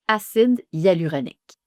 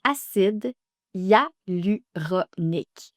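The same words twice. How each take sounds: First: "Acide hyaluronique" at normal pace; "Acide hyaluronique" once more; model pronunciation. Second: "Acide hyaluronique" slowly, every syllable clear; drawn-out "Acide hyaluronique"; teacher's slow "Acide hyaluronique"; slow model pronunciation. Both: Shown as a demonstration. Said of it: "Vous avez aussi acide hyaluronique".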